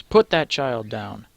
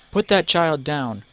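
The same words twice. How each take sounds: First: Slow, firm command; a stranger demands he put the child down; demanding. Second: Higher, louder, slow command; fierce repeat. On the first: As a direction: order the thug to drop the child. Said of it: "a voice demands". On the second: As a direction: repeat it with more force. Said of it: "repeats Chara". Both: Acted.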